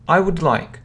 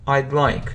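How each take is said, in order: First: The word 'would' is said in full. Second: The word 'would' is shortened to 'd'.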